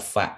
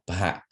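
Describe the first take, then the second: First: It starts with an f sound. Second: It starts with p and a strong breath. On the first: The speaker calls it wrong. "not fa" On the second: The speaker calls it right. "but pa"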